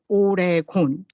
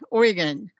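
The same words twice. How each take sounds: First: Oregon is said the way Korean speakers say it. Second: Oregon is said closer to the English pronunciation. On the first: This is how the community says it. The speaker calls it right. "in Korean community, we say Oregon" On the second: This is how the translator renders it. The speaker calls it wrong. "this translator keep um translate Ori- Oregon"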